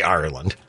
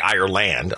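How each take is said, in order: First: The last syllable is reduced to 'lund'. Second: The last syllable has a full 'land' vowel. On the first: The speaker calls it right. "I say it the way he says" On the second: The speaker calls it wrong. "I don't say land. I don't say Ireland"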